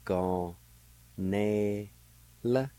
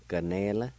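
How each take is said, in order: First: "Gon, ne, la" in three held, separate syllables. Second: "Ganela" said smoothly as one word; joined-up pronunciation. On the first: Teacher showing how it's pronounced, "Gon, ne, la" slowly broken up. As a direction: sound out "Gon, ne, la" with a gap after each. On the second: Teacher putting the word together for learners, "Ganela" joined up. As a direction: say "Ganela" with no gaps between syllables. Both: Shown as a demonstration. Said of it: "It's pronounced like this".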